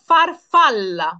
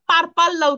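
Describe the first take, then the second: First: The word begins with an f sound. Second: The word begins with a p sound. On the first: The speaker calls it right. "কিভাবে করবো?" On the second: The speaker calls it wrong. "আমরা কিন্তু এটা পারপাল্লা উচ্চারণ করব না"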